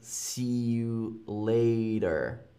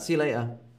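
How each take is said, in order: First: The t in later sounds like a d. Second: The t in later is dropped. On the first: "with more of a D" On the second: "I don't really say the T"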